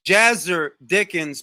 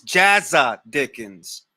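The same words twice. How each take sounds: First: Said in the usual way. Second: Jazza said with a dropped final r, falling; British Jazza Dickens. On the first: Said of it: "his name is Jazzer Dickens". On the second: Shown as a demonstration. Explaining a boxer's name to Alan, British pronunciation. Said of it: "but it's pronounced Jazza Dickens".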